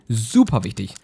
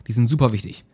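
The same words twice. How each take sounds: First: "Super" drawn out for emphasis; emphatic repeat. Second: Said in the usual way. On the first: Real, not acted. Gamer insists on side attributes, stretching "Super" emphatically. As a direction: lean hard and long on "Super".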